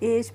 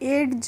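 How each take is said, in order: First: No d sound is heard before the end. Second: A d sound is heard before the end. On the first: The speaker calls it right. "इसमें जो डी होती है वो silent रहती है" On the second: The speaker calls it wrong. "इसको हम एड्ज नहीं पढ़ते"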